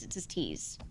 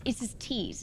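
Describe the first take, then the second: First: Said in the usual way. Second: "it's his T's" with the T in "T's" hit crisp and aspirated; hard British T's. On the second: Shown as a demonstration. Imitating a British friend's sharp T in "T's". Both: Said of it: "he'll overpronounce T's".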